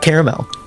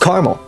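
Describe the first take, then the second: First: Every spelled sound is pronounced in the word. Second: A spelled sound is dropped from the word. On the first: The speaker calls it wrong. "It's not caramel" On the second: The speaker calls it right. "It's caramel"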